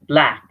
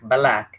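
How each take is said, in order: First: The b and l are said together with no vowel. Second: An a-like vowel is inserted between b and l. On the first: The speaker calls it right. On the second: The speaker calls it wrong.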